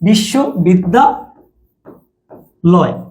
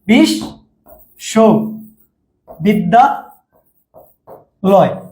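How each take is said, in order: First: The word is split into three separate chunks. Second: The word is split into four separate chunks. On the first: "অনেকে আবার তিনটাই হবে। বিশ্ব একবারে উচ্চারণ করবে অনেকে।" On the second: "অনেকে বলবে বিশ, ... চারটা"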